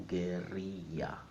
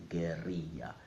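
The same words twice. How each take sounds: No difference in how they are said.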